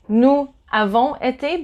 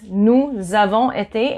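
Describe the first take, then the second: First: Nous and avons are said without a z link. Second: A z sound links nous to avons. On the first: "you can say nous avons été" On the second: "the proper way of saying it is nous avons été"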